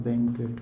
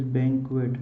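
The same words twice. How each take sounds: First: Banquet said bank-et, the w dropped; wrong banquet. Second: Banquet said bank-wet, with a clear w after the k; correct banquet. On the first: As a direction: demonstrate the error: banquet without the w sound. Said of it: "It is banquet". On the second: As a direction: stress the first syllable of banquet, then a crisp kw. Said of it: "not banquet". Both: Shown as a demonstration.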